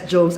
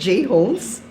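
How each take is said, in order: First: The name is said as one syllable, 'Jones'. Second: The name is said as 'J' plus 'Homes'. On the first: This is how many people misread the name. The speaker calls it wrong. "sometimes they would pronounce it as Jones" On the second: The name means the home of the letter J. The speaker calls it right. "Actually, it's J Homes"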